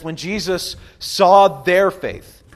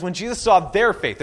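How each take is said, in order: First: Very slow, each word weighed; slow reverent reading of the verse; slow scripture reading. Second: Said in the usual way. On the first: Shown as a demonstration. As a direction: read the verse slowly and solemnly. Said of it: "It says". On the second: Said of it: "it says".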